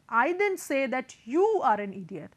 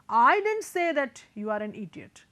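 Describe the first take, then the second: First: The stress falls on the word you. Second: The stress falls on the word I. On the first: The word was used, but not about the listener. "if I am emphasizing on you" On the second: The speaker never used the word at all. "so then the emphasis was on me"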